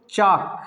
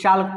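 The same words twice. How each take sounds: First: चाक drawn out with no L; silent L. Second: चाल्क with L heard before K; wrong sounded L. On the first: Teacher models for learners, slow चाक without L. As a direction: say चाक slowly, L left out. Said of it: "क्या पढ़ेंगे". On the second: Teacher quoting some people's mistake, चाल्क with L. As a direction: pronounce the L in चाल्क. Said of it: "लेकिन कुछ लोग". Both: Shown as a demonstration.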